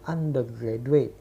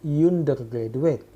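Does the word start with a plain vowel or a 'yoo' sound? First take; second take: plain vowel; yoo. First: The first vowel is a plain vowel sound. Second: The first vowel starts with a 'yoo' sound. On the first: The speaker calls it right. "tapi tetap dibaca undergraduate" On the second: The speaker calls it wrong. "bukan dibaca undergraduate"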